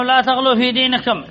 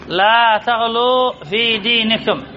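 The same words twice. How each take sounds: First: Said in the usual way. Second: Slow, measured reading with long vowels; stretched vowels in لا تغلوا في دينكم; slow dictation. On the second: Shown as a demonstration. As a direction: draw out each word for students to parse. Example repeated slowly for parsing.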